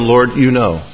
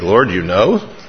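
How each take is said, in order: First: It sounds calm, trusting and reassured. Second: It sounds dismayed and guilty. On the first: It is a comfort that God understands. "it's a consolation because I can say to him" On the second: It is uncomfortable that God saw what was done. "same phrase, different inflection"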